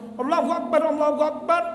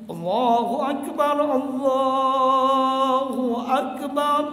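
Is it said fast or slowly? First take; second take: fast; slowly. First: It is said quickly, in a rush. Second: It is said slowly and evenly.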